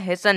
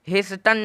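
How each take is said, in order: First: The t sound in the middle is silent. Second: The t sound in the middle is pronounced. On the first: The speaker calls it right. "हेसन निकला है" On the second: The speaker calls it wrong. "हेस्टन नहीं निकला है"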